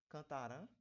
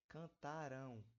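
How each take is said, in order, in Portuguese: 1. A palavra termina em vogal nasal simples 'a'. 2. A palavra termina em ditongo nasal 'ão'. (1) "Não, não fala" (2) "Um som de U"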